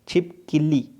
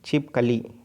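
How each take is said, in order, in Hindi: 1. 'k' ध्वनि के बाद 'i' स्वर आता है। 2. 'k' ध्वनि के बाद कोई स्वर नहीं आता।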